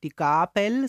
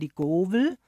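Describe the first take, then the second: First: The middle consonant is a B sound. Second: The middle consonant is a W sound.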